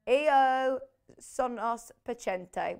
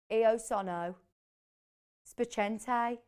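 First: Said in the usual way. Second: Lightly imitated Brummie-accented Italian, "spiacente" ending like "eye"; a hint of Birmingham accent on the Italian. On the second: Host mimicking Paul's learnt Italian phrase, light Birmingham accent. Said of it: "Birmingham accent".

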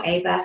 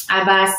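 First: Second try at "Abba", pronounced differently; corrected pronunciation. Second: Name said with a French accent. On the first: Host corrects a viewer's name apologetically, alternative pronunciation. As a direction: try "Abba" another way, softly. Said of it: "maybe I've totally mispronounced your name". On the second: Host misreads a viewer's name from the chat, French accent. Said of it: "My French accent came out". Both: Real, not acted.

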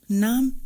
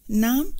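First: Brief, curt one-word reply. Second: Calm echo with a rising end; calmly provocative. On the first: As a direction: answer briefly, giving nothing away. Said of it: "وقال باختصار". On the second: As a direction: toss the word back to needle him. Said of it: "عادت كلمته بهدوء مستفز". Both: A narrator's reading.

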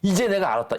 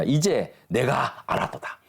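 First: 이제 jumps up high and lands firmly; emphatic paraphrase. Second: Slow scripture reading. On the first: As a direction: proclaim it, higher and stronger. Paraphrase of the verse. (높은 목소리로 힘주어 풀어 말하기) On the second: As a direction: read slowly and evenly, 이제 lightly weighted. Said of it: "제가 읽어보겠습니다". (천천히 성경 구절을 읽듯이) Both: Shown as a demonstration.

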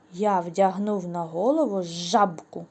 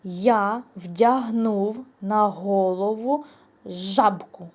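First: «жабку» said again, louder, lower; playful trick sentence, repeated; repeated trick line. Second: «жабку» slipped in, slow and louder; playful trick sentence; deliberate wrong word. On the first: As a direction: repeat the nonsense line for the kids. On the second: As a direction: read the nonsense line slowly for kids to catch. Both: Shown as a demonstration. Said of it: "Шапку, звичайно".

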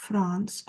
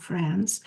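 First: FRANCE with a broad 'ah' vowel; first pronunciation variant. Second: FRANCE with a flatter 'a' as in cat; alternative pronunciation. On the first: Teacher offering pupils one way to say France, broad-vowel variant. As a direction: say France as "Frahns". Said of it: "France or France". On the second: Teacher offering pupils another way to say France, short-a variant. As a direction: say France as "Franss". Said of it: "or France". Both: Shown as a demonstration.

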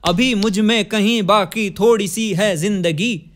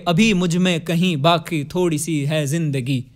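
First: "अभी मुझ में कहीं बाकी थोड़ी सी है जिंदगी" slower, pulsed in meter; metrical reading. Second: "अभी मुझ में कहीं बाकी थोड़ी सी है जिंदगी" spoken lower, not sung; read as words. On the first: Teacher reading the lyric in its meter, slow pulsed recitation. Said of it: "इस तरह से पढ़ोगे अगर इसे". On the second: Teacher reading the lyric as words, lower spoken recitation. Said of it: "इसको शब्द जब पढ़ोगे". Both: Shown as a demonstration.

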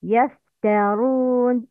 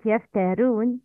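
First: يفترون with a heavy ra; correct pronunciation. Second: يفترون with a light ra; wrong pronunciation. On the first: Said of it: "Please repeat after me". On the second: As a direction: show the error, ra thin. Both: Shown as a demonstration.

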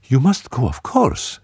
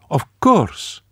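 First: Evenly. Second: Quick, higher woman's voice; woman's voice, prompt. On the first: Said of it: "she said evenly". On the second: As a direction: answer at once, falling. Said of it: "Marie-Lou said at once". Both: A narrator's reading.

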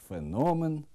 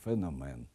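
First: Феномен stressed on the middle syllable, фенОмен; correct stress. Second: Феномен stressed on the first syllable, фЕномен; wrong stress. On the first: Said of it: "порушують наголос у таких словах". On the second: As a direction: say феномен with stress on фе, much lower. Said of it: "Неправильно". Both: Shown as a demonstration.

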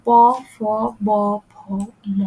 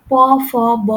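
First: প, ফ, ব, ভ, ম each said alone with pauses between; articulated demo. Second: প, ফ, ব read out quickly as a list; listing the sounds. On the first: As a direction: say প, ফ, ব, ভ, ম one by one, lips pressing clearly. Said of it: "একটু নিজে উচ্চারণ করে দেখেন". (ঠোঁট মিলিয়ে আলাদা আলাদা উচ্চারণ) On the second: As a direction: run through প, ফ, ব in one go. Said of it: "যেমন আপনি দেখেন". (ধ্বনিগুলো তালিকা করে বলা) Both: Shown as a demonstration.

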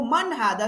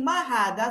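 First: "Man hadha?" with man marked as the right word; stress on MAN. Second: "Ma hadha?" said as the wrong form, plain ma; wrong example. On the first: Teacher giving the correct form, stressed "Man". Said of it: "Sabi mo". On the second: Teacher showing the wrong question, plain "Ma hadha?". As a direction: show "Ma hadha?" as the mistake, ma unstressed. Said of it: "hindi mo sabihin". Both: Shown as a demonstration.

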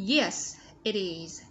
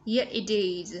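First: Said in the usual way. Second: "it is" run together like "idiz"; "Yes, it is" with an American flapped t; linked flap T. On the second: Shown as a demonstration. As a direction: soften the t in "it" to a d and link it to "is". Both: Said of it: "Nối âm và đọc là the".

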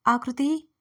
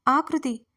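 First: Louder first call, rising at the end. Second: Louder second call, falling firmly. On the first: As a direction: call her name from downstairs, voice lifting. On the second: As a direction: call the name again, insistent and dropping. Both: Acted. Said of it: "Sumitra అరుపుతో".

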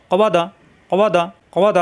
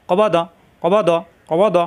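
First: Quick syllables. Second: কবা দ run together fast with no gap; teacher repeating কবা দ briskly; quick, no pause. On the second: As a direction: say কবা দ quickly without stopping. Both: Shown as a demonstration. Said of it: "তাড়াতাড়ি, কোনো দেরি করা যাবে না".

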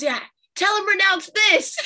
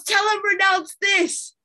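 First: Higher, louder mom calling down from the stairs; imitating mom. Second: Higher, louder and slow mom giving orders from upstairs; imitating mom. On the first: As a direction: call it down the stairs like mom, half laughing. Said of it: "she goes". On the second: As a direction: drawl it out like mom bossing from afar. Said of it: "She goes".

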